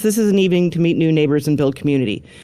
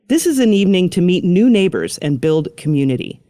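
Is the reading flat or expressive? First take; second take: flat; expressive. First: It is read flatly, without marked emphasis. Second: It is read with lively inflection and emphasis. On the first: The listener must work harder to understand. The speaker calls it wrong. "a listener needs to do a little more work to understand that" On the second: The important words are made clear to the listener. The speaker calls it right. "help them with inflection and tone, right? ... Like that"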